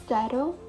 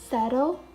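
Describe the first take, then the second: Both takes have the same delivery.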